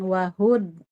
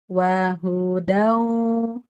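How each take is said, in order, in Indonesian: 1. Bunyi akhirnya ditekan dan dipotong pendek. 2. Bunyi akhirnya ditahan dan mengalir halus. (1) "jangan ditekan, jangan wahud" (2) "tapi wahudau"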